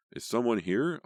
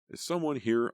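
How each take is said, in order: First: Louder shout of Is someone here; full shout over cats and dogs; shouting at top of voice. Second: Raised, high call into the dark room; nervous call across the noisy shelter. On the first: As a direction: yell it over the barking. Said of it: "I shouted at the top of my voice". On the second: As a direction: call out to find who's there. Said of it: "I called". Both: A narrator's reading.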